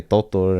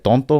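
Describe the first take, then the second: First: "Toto" with no n, two plain "to" syllables; misheard pronunciation. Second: "tonto" with an n before the second t; original pronunciation. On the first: Grandson repeating grandma's nickname as heard, "Toto" without the n. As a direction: drop the n to say "Toto". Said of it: "I would just say". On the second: Giving grandma's nickname for grandpa, "tonto" with the n sounded. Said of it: "my grandma used to call him". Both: Shown as a demonstration.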